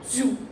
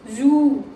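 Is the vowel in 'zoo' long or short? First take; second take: short; long. First: The vowel in zoo is short. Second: The vowel in zoo is stretched long. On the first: The speaker calls it wrong. "It's not zoo" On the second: The speaker calls it right. "This is long O. The O is little bit stretched"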